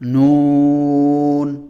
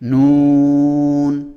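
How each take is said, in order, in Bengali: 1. স্বরটি ছোট ও সাধারণ। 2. স্বরটি টেনে লম্বা করে পড়া হয়। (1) "নর্মালি আপনি যেভাবে নুন বলে থাকেন নুন বলবেন" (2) "তখন আপনি এটাকে টান দিয়ে পড়বেন"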